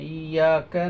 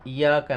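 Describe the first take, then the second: First: The y sound is held and doubled. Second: The y sound is short and single. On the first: The speaker calls it right. "इसको हम दो बार ऐसे करेंगे" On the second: The speaker calls it wrong. "इया का नहीं"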